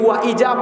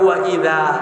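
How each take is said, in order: First: The middle consonant is a z sound. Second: The middle consonant is a soft th sound. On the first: The speaker calls it wrong. "এই যে ওয়া ইজা পড়লো বাংলা উচ্চারণ" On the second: The speaker calls it right. "জিব্বার আগা দাঁতের আগায় লাগে, এটা হবে ওয়া ইদা"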